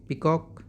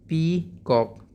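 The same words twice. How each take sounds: First: Said in the usual way. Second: peacock broken into two drawn-out beats, pee... cock; split into syllables. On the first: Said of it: "peacock को हमने दो part में". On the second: Shown as a demonstration. Teacher breaking the word for pupils, syllable by syllable. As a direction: say peacock slowly, a pause between pee and cock. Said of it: "दो part में तोड़ दिया".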